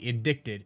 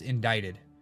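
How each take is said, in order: First: A k sound is heard before the t. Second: No k sound is heard before the t. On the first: "Why is it spelled I N D I C T E D" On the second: "if it's actually pronounced"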